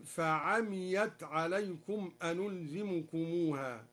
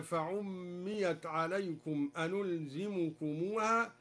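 First: فعميت as fa-'amiyat, no doubled m; light mim, open ain. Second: Said in the usual way. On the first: Shown as a demonstration. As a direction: recite فعميت unstressed, fa-amiyat. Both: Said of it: "قرأها الدوري".

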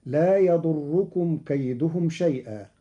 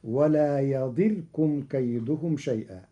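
First: "يضركم" as yaḍurrukum, with u and doubled r; damma on the ḍād. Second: "يضركم" as yaḍirkum, with i and single vowelless r; kasra on ḍād, still rāʾ. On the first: Teacher reciting the verse before Qalun's change, "يضركم" as yaḍurrukum. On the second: Teacher showing Qalun's reading, "يضركم" as yaḍirkum. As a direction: close "يضركم" straight from r to k, yaḍirkum. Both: Shown as a demonstration. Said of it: "بكسر الضاد وجزم الراء".

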